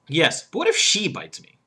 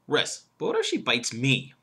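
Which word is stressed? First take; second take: she; me. First: The stress is on "she". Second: The stress is on "me".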